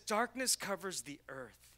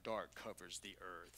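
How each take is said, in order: First: It is read in an ordinary voice. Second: It is read in a deep trailer voice.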